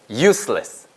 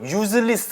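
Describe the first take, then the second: First: The middle consonant is a hissing s sound. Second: The middle consonant is a buzzing z sound. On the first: The speaker calls it right. "스 발음 가셔야 되겠죠?" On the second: The speaker calls it wrong. "절대로 useless 아니에요"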